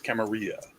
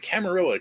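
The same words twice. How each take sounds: First: The double L sounds like a Y. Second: The double L sounds like an English L. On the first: The speaker calls it right. "There's two L's. It's Camarilla" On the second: The speaker calls it wrong. "Everybody says Camarilla"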